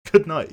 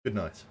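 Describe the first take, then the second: First: "Good night" laughing, much higher and louder. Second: Said in the usual way. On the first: Pretend. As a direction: burst out with a bright high "Good night".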